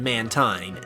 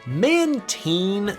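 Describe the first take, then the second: First: The ending does not sound like 'marine'. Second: The ending sounds like the end of 'marine'. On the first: This is what most people say. The speaker calls it right. "that's what pretty much everyone calls it" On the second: This is the official pronunciation. The speaker calls it wrong. "sounds so much worse"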